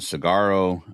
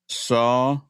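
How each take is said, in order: First: The word begins with a 'sig' sound. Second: The word begins with a 'sah' sound. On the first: The speaker calls it wrong. "I pronounced it cigarro" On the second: The speaker calls it right. "he says it's saguaro"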